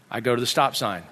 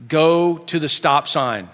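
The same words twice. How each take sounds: First: Low, soft narrated compliance; subdued, obedient repeat; quiet echo. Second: Slow, deliberate child's instruction, acted; measured driving command; giving directions. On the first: Retold or imitated. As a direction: echo the order softly as you follow it. Dad obediently echoes the direction. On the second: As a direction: spell out the route slowly. Boy gives directions, dad echoes.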